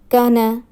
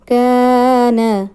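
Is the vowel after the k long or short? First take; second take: short; long. First: The vowel after the k is short. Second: The vowel after the k is long. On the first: The speaker calls it wrong. "Incorrect pronunciation is" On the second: The speaker calls it right. "Empty alif before fatha will be long"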